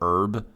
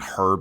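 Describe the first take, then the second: First: The word starts with no h sound. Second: The word starts with an audible h sound. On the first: It follows the American way of saying it. "we decided to not have the pronunciation of the H" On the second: It follows the British way of saying it. "non cheeseburger brain of saying herb"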